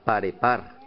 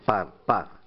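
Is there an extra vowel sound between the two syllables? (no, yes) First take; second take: yes; no. First: An extra e vowel sits between the syllables. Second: The two syllables join with no vowel between. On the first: The speaker calls it wrong. "Mal leído quedaría parepar" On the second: The speaker calls it right. "Esta va acentuada, par, par"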